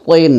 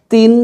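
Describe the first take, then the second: First: তিন with a thick, heavy t. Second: তিন with a thin, light t. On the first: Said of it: "এখানে মোটা করে উচ্চারণ". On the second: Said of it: "এখানে পাতলা করে". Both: Shown as a demonstration.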